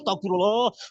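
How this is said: It is said calmly and sincerely, deeply felt.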